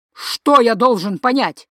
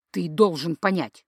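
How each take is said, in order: First: Louder, indignant echo; indignant retort. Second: Said in the usual way. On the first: Acted. Father throwing the son's words back, indignant and loud.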